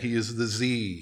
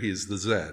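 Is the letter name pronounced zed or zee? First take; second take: zee; zed. First: The letter is said the American way, zee. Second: The letter is said the Canadian way, zed.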